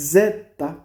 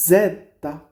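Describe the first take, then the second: No difference in how they are said.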